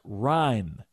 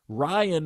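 First: The name is said in one syllable. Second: The name is said in two syllables. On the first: The speaker calls it right. "pronounced Ryan" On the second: The speaker calls it wrong. "Ryan has two syllables"

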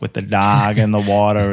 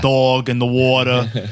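First: It is said in a Minnesota accent. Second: It is said in a New York accent.

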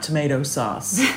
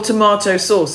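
First: Tomato is said with an American pronunciation. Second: Tomato is said with a British pronunciation.

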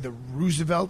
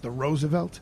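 First: Roosevelt is said with a Brooklyn-style pronunciation. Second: Roosevelt is said with a standard pronunciation. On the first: The speaker calls it wrong. "I mispronounce it. I say the Roosevelt" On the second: The speaker calls it right. "and it's the Roosevelt"

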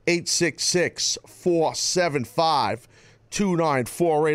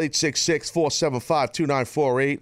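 First: The number is said more slowly. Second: The number is said at normal speed.

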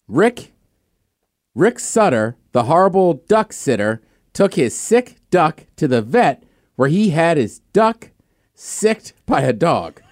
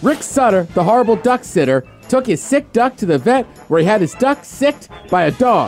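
First: It is read through at normal speed. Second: It is read quickly, as fast as possible.

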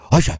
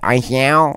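First: The name is said like a dog's bark. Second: The name is said like a cat's meow. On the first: "köpekler böyle yapıyor" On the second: "Kedi böyle yapıyor"

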